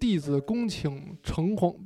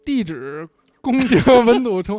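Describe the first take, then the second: First: It is said in standard Mandarin. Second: It is said in a Northeastern accent.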